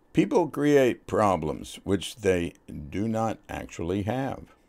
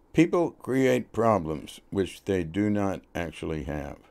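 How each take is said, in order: The two takes are said the same way.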